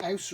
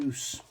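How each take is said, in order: First: Ouse said as "owse"; first pronunciation option. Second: Ouse said as "ooze"; alternative pronunciation. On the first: Unsure of the Yorkshire place name, Ouse pronounced "owse". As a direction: say Ouse to rhyme with house. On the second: Offering another reading of the place name, Ouse pronounced "ooze". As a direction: say Ouse with a long oo. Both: Shown as a demonstration. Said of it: "Is that Ouse or Ouse?".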